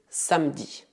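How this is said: The middle e is silent. This is how it is said around Lyon. "na minha região, perto da cidade de Lyon, dizemos"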